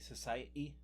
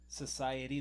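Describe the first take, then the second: First: It is said with a British accent. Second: It is said without a British accent. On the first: "how the people in the U K talk" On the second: "instead of saying society"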